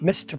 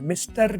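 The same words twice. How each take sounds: First: The final r sound is dropped. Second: The final r sound is pronounced. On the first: The speaker calls it right. "मिस्टर तो मिस्ट करके बोलो" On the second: The speaker calls it wrong. "मिस्टर नहीं"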